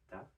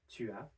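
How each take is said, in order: First: It is contracted into a single syllable. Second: It is said fully as two separate syllables. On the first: "which we've seen can become ta" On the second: "So we have tu as"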